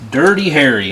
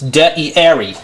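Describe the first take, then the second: First: It is said in a plain accent. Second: It is said in a Cockney British accent.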